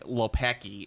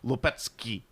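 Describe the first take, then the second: First: The surname is said with an American Chicago accent. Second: The surname is said with a Polish-style pronunciation. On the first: This is how the family itself says the name. "I have Southside Chicago pronunciation" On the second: This is how others insist the name should be said. "that's not the way you pronounce it. It's Lopetsky"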